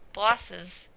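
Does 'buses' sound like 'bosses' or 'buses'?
bosses. The first vowel sounds like 'bosses'. "bosses is"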